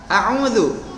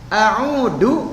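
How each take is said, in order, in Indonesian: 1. Huruf tengahnya berbunyi mirip z. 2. Huruf tengahnya berbunyi d. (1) "Kalau dibaca a'udzu dengan huruf za, maka maknanya adalah a'udzu, aku berlindung" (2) "nah gitu, dibacanya adalah da, itu adalah aku kembali"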